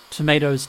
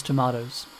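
First: Tomatoes with a long A, tuh-MAY-doze. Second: Tomatoes with a broad A, tuh-MAH-doze. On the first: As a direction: say tomatoes with the A as in day. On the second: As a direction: say tomatoes with the A as in father. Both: Shown as a demonstration.

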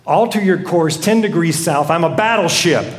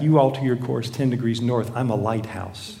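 First: Firm captain's order, mildly angry; ticked-off captain. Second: Soft, low, unruffled answer; understated reply. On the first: Ticked captain signalling the other vessel, firm and irritated. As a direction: pull rank with controlled irritation. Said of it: "now he's really ticked". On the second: Lighthouse answering the angry captain, quiet and understated. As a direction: deliver the punchline quietly, without any push. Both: Acted.

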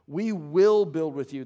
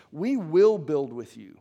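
First: "will" punched, the whole line louder and slow; "will" hit as a definite statement, slow and louder; emphatic WILL. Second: "We" punched, the whole line louder and slow; "We" hit as a firm claim, slow and louder; emphatic WE. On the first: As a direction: lean hard on "will" in "We will build with you.". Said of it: "incredibly definitive". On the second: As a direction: lean hard on "We" in "We will build with you.". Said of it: "look emphatically at how this language is constructed". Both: Shown as a demonstration.

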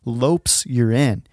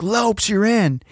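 First: Said in the usual way. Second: High-pitched imitation of a yelling coach; coach's yell. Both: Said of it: "I hear him yell".

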